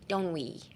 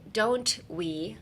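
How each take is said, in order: First: The two words run together as one. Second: Each word is said separately and fully.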